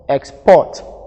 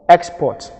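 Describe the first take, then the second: First: The stress is on the second syllable. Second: The stress is on the first syllable. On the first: It is used as a verb. "the second syllable carries the stress" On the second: It is used as a noun. "the first syllable is going to carry the stress"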